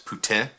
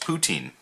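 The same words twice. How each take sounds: First: It is said with a French pronunciation. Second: It is said with a Western Canadian pronunciation.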